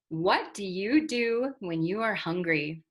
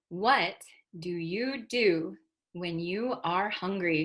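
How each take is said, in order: First: The sentence is said at a faster pace. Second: The sentence is said at a slower pace.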